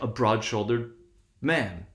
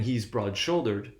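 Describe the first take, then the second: First: "broad-shouldered man" with "broad" stressed, so the beat moves off "shoulder" before "man"; the reversed pattern of "broad-shouldered man"; stress shifted to BROAD. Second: "broad-shouldered" with the main beat on "shoulder", said slowly; "He's broad-shouldered" with "shoulder" stressed at the end of the phrase. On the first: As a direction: say "broad-shouldered" then hit "man", keeping the two stresses apart. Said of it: "And we can hear it". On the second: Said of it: "instead of saying". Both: Shown as a demonstration.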